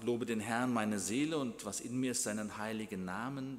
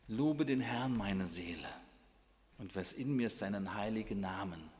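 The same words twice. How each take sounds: First: It is read straight through without pausing. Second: It is read slowly with reflective pauses. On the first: The words are merely recited without reflection. The speaker calls it wrong. "Nicht nur einfach" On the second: The words are prayed with reflection. The speaker calls it right. "dass wir innehalten"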